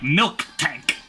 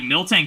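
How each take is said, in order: First: An extra k sound splits the name in two. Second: The name flows smoothly with no extra k. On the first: The speaker calls it wrong. "You're like choking on something when you say that" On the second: The speaker calls it right. "just like rolls off the tongue better"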